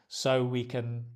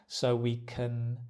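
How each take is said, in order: Both takes have the same delivery.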